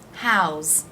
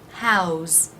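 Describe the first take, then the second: First: It is one syllable ending in a z sound. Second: It is one syllable ending in a z sound.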